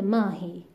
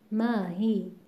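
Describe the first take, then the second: First: It is said as one joined word. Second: It is said as two separate words. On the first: The speaker calls it wrong. "نه اینکه ماهی" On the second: The speaker calls it right. "ماهی دو تا کلمه است"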